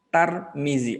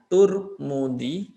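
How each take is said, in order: First: The first two syllables have the vowels a and i. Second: The first two syllables have the vowels u and u. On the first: "wa bi fathhi ta ma'a kasril mimi Tarmizi" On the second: "di domah tak dengan memnya Turmudi"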